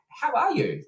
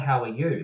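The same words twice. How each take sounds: First: The greeting sounds warm and lively. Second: The greeting sounds flat and routine. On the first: The greeter genuinely cares about the person. The speaker calls it right. "the whole kind of mood and the whole energy is different" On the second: The greeter does not really care. The speaker calls it wrong. "it's not like a"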